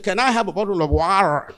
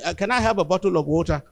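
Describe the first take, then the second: First: It is said in an American accent. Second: It is said in a Nigerian accent.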